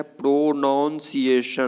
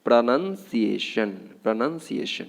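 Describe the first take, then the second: First: Slow प्रोनाउंसिएशन broken into "pro-naun-si-a-shan"; broken-up wrong pronunciation. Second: Slow प्रोनंसिएशन with "pra-nun", not noun; correct pronunciation. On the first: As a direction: break प्रोनाउंसिएशन apart, sounding pro and noun. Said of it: "पूरा तोड़ करके". (प्रोनाउंसिएशन तोड़कर, धीरे बोलें) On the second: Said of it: "आपको क्या बोलना है". (प्रोनंसिएशन में "नन" धीरे बोलें) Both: Shown as a demonstration.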